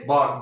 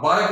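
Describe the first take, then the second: First: बार्क with no R, like "baak"; silent R. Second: बार्क with a clear R, like "baarak"; wrong sounded R. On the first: Teacher modelling the correct word, बार्क with silent R. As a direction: drop the R in बार्क. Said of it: "बार्क नहीं बोलेंगे इसको". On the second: Teacher showing the mistake to avoid, बार्क as "baarak". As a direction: voice the R in बार्क before the K. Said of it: "नहीं बोलेंगे इसको". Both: Shown as a demonstration.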